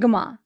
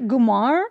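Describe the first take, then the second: First: The word ends in a vowel, no R. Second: The word ends with an R sound. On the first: "not the way we say it" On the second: "He said there's an R at the end of it"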